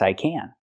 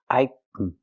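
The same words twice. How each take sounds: First: Can is said with a full, stressed vowel. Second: Can is said with a very reduced vowel. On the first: No verb follows the word. "then you say can" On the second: A verb follows in casual speech. "They reduce it more"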